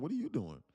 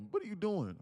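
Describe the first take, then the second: First: Higher echo of her words, teasing; mimicking her back. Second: High, puzzled imitation of his girlfriend. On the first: He mocks his girlfriend by repeating her, teasing echo. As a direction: throw her question back at her. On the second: Girlfriend stopped at the door, high confused question. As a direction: raise the voice to play her confusion.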